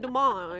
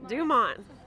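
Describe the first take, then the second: First: The name is said with a French accent. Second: The name is said with an English accent. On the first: The speaker calls it right. "I feel like I need to say it French" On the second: The speaker calls it wrong. "I didn't say that right"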